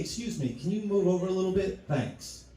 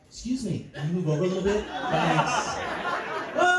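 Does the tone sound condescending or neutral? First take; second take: neutral; condescending. First: The tone is plain and neutral. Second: The tone is condescending and superior. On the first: It is an ordinary polite request. "I'll say something regular" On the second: The speaker looks down on the listener. "if you do want to be condescending"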